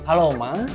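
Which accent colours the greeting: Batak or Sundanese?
Sundanese. It is said with a Sundanese accent. The accent from the acting role carried over. The speaker calls it wrong. "Jadi ke bawah aksen"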